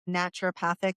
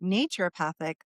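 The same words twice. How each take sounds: First: The start sounds like the word natural. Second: The start sounds like the word nature. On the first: "like the word natural" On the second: "like nature"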